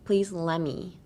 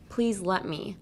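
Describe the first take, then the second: First: "let" said with the T dropped, "la me"; silent T in let. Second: Said in the usual way. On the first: Shown as a demonstration. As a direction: glide from "let" into "me" with no T. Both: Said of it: "you can make the T silent".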